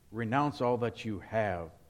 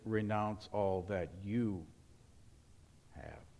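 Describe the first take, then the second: First: The word have carries the stress. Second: The word have carries no stress.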